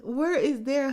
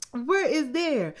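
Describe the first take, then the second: First: Higher and louder, Where rising like a real question; mocking question. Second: Higher, louder, slow and pointed, falling at the end; exasperated mock question. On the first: Vlogger asking Kirsten, rising and teasing. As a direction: ask where is there, lifting on Where as if curious. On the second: Vlogger talking back to Kirsten on screen, slow pointed disbelief. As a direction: drag out Where is there? slowly and hit Where hard. Repeats the mocking question slower. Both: Real, not acted.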